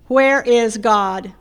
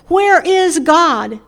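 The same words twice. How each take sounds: First: It is said more sternly and somewhat louder. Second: It is said loudly with a raised voice.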